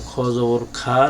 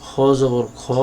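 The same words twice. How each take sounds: First: Final খা opened to "kha" instead of "kho"; mistaken pronunciation. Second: Last খ said as a rounded "kho", not "kha"; correct Arabic pronunciation. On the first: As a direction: demonstrate the slip, ending খ জবর খা on "kha". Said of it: "ভুল করে ফেলি". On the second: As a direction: spell out খ জবর খ Arabic-style, ending on "kho". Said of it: "আরবির মতো করে উচ্চারণ করতে হবে". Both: Shown as a demonstration.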